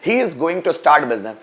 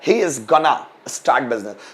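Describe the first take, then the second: First: It uses the full British form 'going to'. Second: It uses the reduced American form 'gonna'.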